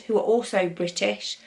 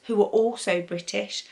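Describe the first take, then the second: No difference in how they are said.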